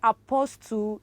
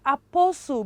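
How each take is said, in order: First: The t after the s is clearly pronounced. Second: The t after the s is not pronounced. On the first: The speaker calls it wrong. "Do you say apostle? It is so wrong" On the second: The speaker calls it right. "It is apostle because the T ... is silent"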